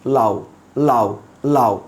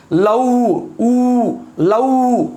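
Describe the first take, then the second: First: "লাউ" low, its final "উ" light and unstressed; soft semivowel. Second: "লাউ" with its final "উ" held long and high; full pronunciation. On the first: Teacher shows everyday speech, "লাউ" with a soft short "উ". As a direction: let the "উ" in "লাউ" glide off softly as a semivowel. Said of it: "আমরা soft". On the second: Teacher exaggerates for class, "লাউ" ending in a long full "উ". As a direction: stretch the "উ" in "লাউ" into a full vowel. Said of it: "লাউ শব্দে আমি পূর্ণ উচ্চারণ দিব". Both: Shown as a demonstration.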